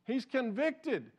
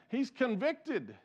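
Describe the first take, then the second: No difference in how they are said.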